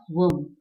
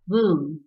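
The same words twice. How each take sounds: First: Womb said the way to be avoided, short vowel; wrong pronunciation. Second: Womb as WOOM; long oo and silent b in womb; correct pronunciation. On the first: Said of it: "and not womb". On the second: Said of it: "W O M B is". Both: Shown as a demonstration.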